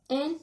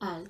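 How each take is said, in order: First: The vowel sounds like a plain e. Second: The vowel sounds like an open a. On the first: The speaker calls it wrong. "No es diu el" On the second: The speaker calls it right. "es diu al ... com una A o una E oberta"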